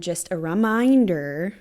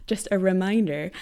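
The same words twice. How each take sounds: First: "reminder" stretched out, its middle swelling loud; oddly stressed "reminder". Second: Said in the usual way. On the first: Real, not acted. Vlogger reminding viewers of her account, "reminder" comes out weirdly drawn-out and loud. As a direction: accidentally overdo "reminder", drawing out the middle syllable. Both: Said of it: "why did that come out weird".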